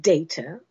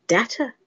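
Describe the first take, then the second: First: "data" with a long "ay": DAY-ta; first pronunciation. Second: "data" with a short flat A: DAT-a; second pronunciation. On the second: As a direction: say "data" as "datt-uh". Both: Shown as a demonstration. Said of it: "Is it data or is it data?".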